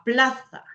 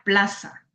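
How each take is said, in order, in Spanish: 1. La z se dice con la lengua entre los dientes. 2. La z se dice como una s normal. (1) "cambió a ser interdental en el centro y norte de España" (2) "Para nosotros sería plaza"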